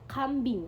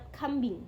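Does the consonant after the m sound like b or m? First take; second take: b; m. First: Said at normal speed with a clear b. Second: Said quickly with the b sounding like m.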